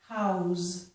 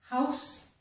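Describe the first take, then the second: First: The word ends with a z sound. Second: The word ends with an s sound.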